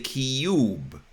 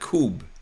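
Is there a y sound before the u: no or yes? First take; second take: Yes; No. First: A y sound comes before the u. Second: The u is said with no y sound. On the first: This is how Americans say it. The speaker calls it right. "We say cube" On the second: This is how it is spelled. The speaker calls it wrong. "not cube as spelled"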